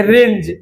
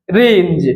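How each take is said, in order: First: Said in the usual way. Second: "रेंज" lower, with a long vowel; teacher's low, lengthened "रेंज"; drawn-out demonstration. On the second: Shown as a demonstration. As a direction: stretch "रेंज" out to show the opening र. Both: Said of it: "र आ रहा है".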